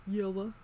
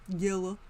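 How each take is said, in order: The two takes are said the same way.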